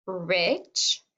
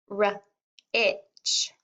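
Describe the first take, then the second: First: Said in the usual way. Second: R-itch split into its sounds, R then itch; sounding out R-itch slowly; sounded out. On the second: Shown as a demonstration. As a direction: stretch the word into R and itch. Teacher sounds out the word.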